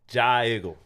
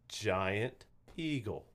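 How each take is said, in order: First: It is squeezed into one short word. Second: It is said as two separate words. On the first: "That kind of sounds like a hick, like sound" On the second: "Two words, right?"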